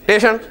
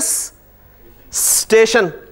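First: The s is dropped, starting with t. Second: The word starts directly with the st cluster. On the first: "उन्होंने कहा जी इसे भी गिरा दो" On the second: "लेकिन आप देखें ना स्टेशन"

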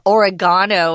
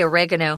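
First: It is said in a British accent. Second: It is said in an American accent. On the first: "as the British like to say" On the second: "We say oregano"

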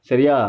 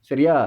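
Both takes have the same delivery.

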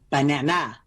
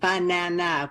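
First: One syllable is stressed, in an unusual place. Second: All syllables carry equal stress, sounding robotic. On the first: "change the stress in the word" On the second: "they might keep the stress the same, ... which would sound um, more robotic"

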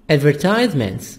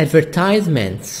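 Both takes have the same delivery.

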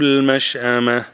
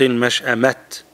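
First: The word ends in a silent h sound. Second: The word ends in a t sound. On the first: The speaker calls it right. "stop change it to ها" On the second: The speaker calls it wrong. "do not say المشأمت"

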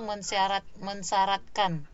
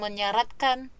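First: The s sound after the nasal is kept. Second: The s sound after the nasal is dropped. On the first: The speaker calls it right. "tapi mensyaratkan. Itu yang bakunya ya" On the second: The speaker calls it wrong. "Jadi dia bukan menyaratkan"

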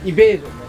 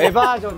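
First: The word begins with an 'ee' sound. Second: The word begins with an 'eh' sound. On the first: The speaker calls it right. "けどイベージョンね" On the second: The speaker calls it wrong. "エバージョンじゃないよ"

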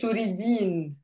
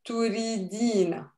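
First: The word ends without the final vowel. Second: The word ends with a short final vowel.

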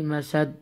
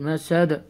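First: The final consonant stops flat with no bounce. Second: The final consonant ends with an echoing bounce. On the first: The speaker calls it wrong. "Don't say مسد" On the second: The speaker calls it right. "you need to apply the قلقلة"

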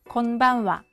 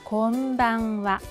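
First: The n sound is cut short. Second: The n sound is held for a full beat. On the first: The speaker calls it wrong. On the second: The speaker calls it right.

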